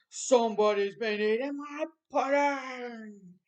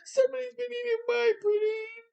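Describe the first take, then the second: First: It is said in a great big voice. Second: It is said in a small sweet voice.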